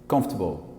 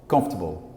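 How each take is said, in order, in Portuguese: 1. A tônica cai na primeira sílaba. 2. A tônica cai na primeira sílaba.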